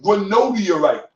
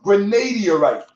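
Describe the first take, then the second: First: The vowel after 'gran' sounds like long O. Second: The vowel after 'gran' sounds like long A. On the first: The speaker calls it right. "It's pronounced granodiorite" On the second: The speaker calls it wrong. "The stone is not pronounced granadiorite"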